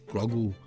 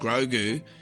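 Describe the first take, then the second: First: The final 'goo' syllable is dropped and reduced. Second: The final 'goo' syllable is said in full. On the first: The speaker calls it right. "you got to drop the kind of goo" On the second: The speaker calls it wrong. "I said Grogu, and someone got mad at me"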